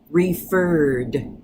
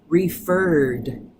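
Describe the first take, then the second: No difference in how they are said.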